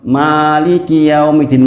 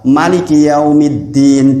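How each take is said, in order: First: The first vowel is held long, two beats. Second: The first vowel is short, one beat. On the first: "manya panjang dua harokat" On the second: "dibaca satu harokat"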